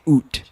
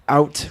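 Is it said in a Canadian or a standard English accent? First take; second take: Canadian; standard. First: It is said in a Canadian accent. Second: It is said in a standard English accent.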